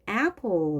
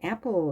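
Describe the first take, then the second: First: The first vowel sounds strong with the jaw lowered. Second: The first vowel sounds weak, like Korean e. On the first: The speaker calls it right. "뭔가 센 소리로 들리거든요" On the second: The speaker calls it wrong. "이렇게 하지 않고"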